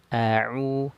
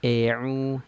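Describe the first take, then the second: First: The first vowel is opened to a medium width. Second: The first vowel is opened too little. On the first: The speaker calls it right. "Mutawassit saja, standar" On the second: The speaker calls it wrong. "Miring itu kurang bukaan mulut kita"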